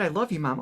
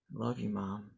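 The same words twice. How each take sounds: First: Said in the usual way. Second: Low, quiet and downcast; sad. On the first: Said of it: "Oh, that's sweet". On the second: Shown as a demonstration. Child to mom, hiding hurt, quietly sad. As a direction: say it softly, sunk in sadness. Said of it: "you can hear when someone's sad".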